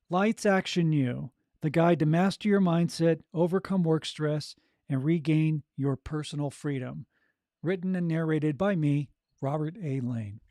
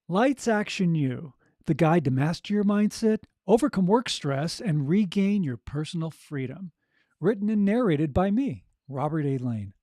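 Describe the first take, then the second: First: It is read with low energy. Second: It is read with more energy, smiling.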